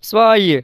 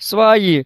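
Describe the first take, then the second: First: The v sound is soft, barely heard. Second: The v sound is soft, barely heard.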